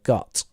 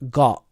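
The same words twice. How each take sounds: First: The final T is fully pronounced. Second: The final T is a glottal stop. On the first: "instead of got" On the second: "change the T into a glottal stop"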